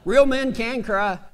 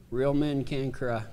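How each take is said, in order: First: Said in the usual way. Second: Much softer, lower, mock-tearful repeat. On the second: Shown as a demonstration. Preacher joking about crying, mock-tearful hush. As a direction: let the voice sink as if near tears.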